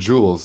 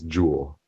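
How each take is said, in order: First: The name ends with an added s sound. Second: The name ends without any s sound. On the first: The speaker calls it wrong. "It's not Jules" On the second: The speaker calls it right.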